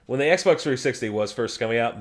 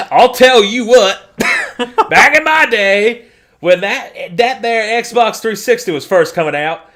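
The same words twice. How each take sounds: First: Said in the usual way. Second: Put-on old man voice. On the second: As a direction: grumble like a cranky grandpa. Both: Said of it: "I sound like an old man".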